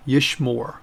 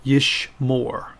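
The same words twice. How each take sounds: First: Said in the usual way. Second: "Yishmor" slowly, split into two syllables; pronounced for repetition. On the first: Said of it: "And one more time". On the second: Shown as a demonstration. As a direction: model "Yishmor" slowly for learners to copy. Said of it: "pronounce them after me".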